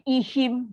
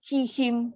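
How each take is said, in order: First: The word begins with a glottal stop. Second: The word begins with a breathy h sound. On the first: The speaker calls it wrong. "hihim jadi ihim. Ha, selalu ha dia akan tukar jadi hamzah" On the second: The speaker calls it right. "Ha yang pertama tak boleh sebut"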